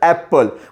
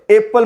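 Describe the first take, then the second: First: The first vowel sounds like 'a' in cat. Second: The first vowel sounds like 'e' in bed. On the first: The speaker calls it right. "आपण काय म्हणतो ॲपल" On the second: The speaker calls it wrong. "एपल म्हणतो का आपण, नाही"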